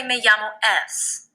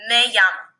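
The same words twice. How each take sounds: First: "Me llamo es" said as the wrong form to avoid; the "es" after "Me llamo" is the mistake. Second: "Me llamo" said alone, with nothing after it; just "Me llamo" and then the name; right form. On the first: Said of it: "We never want to say". (la forma incorrecta "Me llamo es") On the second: (la forma correcta "Me llamo") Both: Shown as a demonstration.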